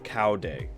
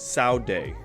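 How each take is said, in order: First: The name starts with a k sound. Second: The name starts with a ts sound. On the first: The speaker calls it wrong. "instead of Cow Day" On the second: The speaker calls it right. "it's actually pronounced Sao, as in T S A O"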